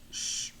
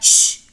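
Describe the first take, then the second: First: The sh sound is soft and gentle. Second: The sh sound is strong and harsh. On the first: The speaker calls it right. "it's a gentle sh" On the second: The speaker calls it wrong. "It's not sh"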